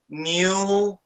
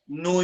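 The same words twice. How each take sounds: First: It is said in a British accent. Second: It is said in an American accent. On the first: "British English, the tendency is to say new newspaper" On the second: "in American English, it's more like new New York newspaper, like this"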